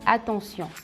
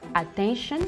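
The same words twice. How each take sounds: First: It is pronounced the French way. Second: It is pronounced the English way. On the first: "en français" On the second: "en anglais"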